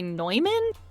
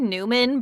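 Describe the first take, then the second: First: The first syllable sounds like 'noy'. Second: The first syllable sounds like 'new'. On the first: This is how many others in the field say it. "a lot of other people in the voiceover world say Neumann" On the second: This is the speaker's own usual pronunciation. "I say Newman"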